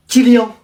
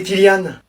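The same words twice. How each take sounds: First: Kylian said with a nasal -ien ending, like kil-yin; teacher's mispronounced Kylian with a nasal end; wrong pronunciation. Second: Kylian said with a clear open -ann ending, like kil-yann; the student's corrected Kylian with an -ann end; correct pronunciation. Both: Acted. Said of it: "Moi, c'est Kylian".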